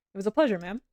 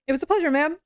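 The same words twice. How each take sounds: First: Said in the usual way. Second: Higher, brighter character voice; Rain voice. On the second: Acted. Rain thanking the client, in a higher character voice. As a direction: lift it into Rain's voice. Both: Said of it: "That's my Rain voice".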